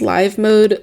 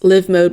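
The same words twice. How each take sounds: First: The i in live rhymes with five. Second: The i in live rhymes with give. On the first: "with the long I" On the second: "with the short I"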